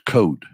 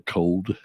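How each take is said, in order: First: The word is said without any L sound. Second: The word is said with a clear L sound. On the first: "cold as C O D. It's code" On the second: "Did I say cold?"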